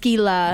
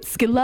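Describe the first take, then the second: First: The final vowel is drawn out. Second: The final vowel is short. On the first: The speaker calls it right. "Like you kind of hold out the A" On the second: The speaker calls it wrong. "a lot of people pronounce it Skeela"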